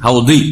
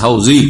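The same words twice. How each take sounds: First: হাউদি with the Arabic dad, close to a d. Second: হাউজি with a Bengali z sound. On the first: Teacher showing the Arabic sound, হাউদি with dad. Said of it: "আরবি তো দদ". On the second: Teacher showing the common Bengali way, হাউজি with z. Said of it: "এই হাউজ শব্দটা এসেছে". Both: Shown as a demonstration.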